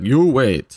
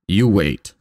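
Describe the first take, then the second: First: Put-on curt Russian accent, higher and louder; clipped Russian doctor accent. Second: Put-on Russian accent. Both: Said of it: "Was that in her best Russian accent?".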